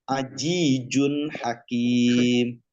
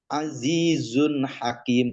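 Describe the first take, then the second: First: The consonants are pronounced as j sounds. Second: The consonants are pronounced as z sounds.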